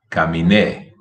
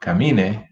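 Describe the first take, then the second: First: Caminé stressed on the final NÉ; stress on last syllable. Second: Camine stressed on MI; stress on middle syllable. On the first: Teacher having students practise, final stress on caminé. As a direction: land on the end of caminé. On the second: Teacher having students practise, middle-syllable stress on Camine. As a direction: lean on the MI of Camine. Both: Shown as a demonstration. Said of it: "the difference".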